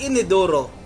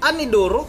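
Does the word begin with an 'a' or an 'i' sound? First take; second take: i; a. First: The word begins with an 'i' sound. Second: The word begins with an 'a' sound. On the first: The speaker calls it right. "yung pagbigkas niya ng Inidoro" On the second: The speaker calls it wrong. "hindi mo nga alam magbigkas"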